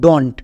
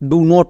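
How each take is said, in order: First: It is said as one contracted word. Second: It is said as two separate words. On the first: The speaker calls it right. "উচ্চারণ করব ডন্ট" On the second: The speaker calls it wrong. "ডু নট না"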